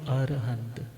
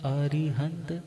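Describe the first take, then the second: First: The word is said without the middle 'i' sound. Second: The word is said with the middle 'i' sound. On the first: This is the form used in Rajasthan or Gujarat. "अब वो बोलते हैं जी अरिहंत नहीं बोलो, क्या बोलो" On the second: This is the form commonly used in Punjab. "मगर हमारे तो क्या चलता है"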